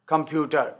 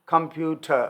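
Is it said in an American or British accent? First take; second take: British; British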